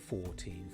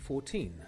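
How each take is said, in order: First: The stress is on the first syllable. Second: The stress is on the second syllable. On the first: "when we are counting, we often put the stress on the first syllable" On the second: "we usually put the stress on the second syllable"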